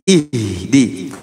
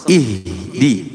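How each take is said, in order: The two takes are said the same way.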